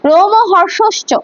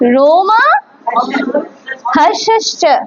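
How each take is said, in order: First: No vowel is heard after 'rom'. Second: A long 'a' vowel follows 'rom'. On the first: The speaker calls it wrong. "বাংলায় উচ্চারণ করে তাহলে রোমহর্ষশ্চ হবে না" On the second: The speaker calls it right. "रोमा মা"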